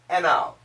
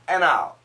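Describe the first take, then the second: Both takes have the same delivery.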